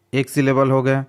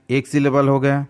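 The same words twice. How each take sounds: The two takes are said the same way.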